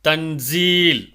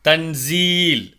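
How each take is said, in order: Both takes have the same delivery.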